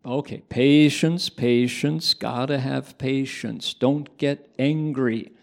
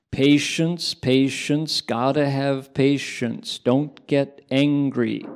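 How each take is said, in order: First: Slow, louder chanted mantra; repeated mantra. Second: Slow, louder chanted mantra; chanted, intone it like a teaching; chanting a mantra. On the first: Monk repeating the patience mantra for Doug. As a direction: chant it again for him. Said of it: "Okay, recite it back". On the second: Monk teaching Doug the patience mantra, slow chant. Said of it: "I'll transmit the first English language mantra". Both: Retold or imitated.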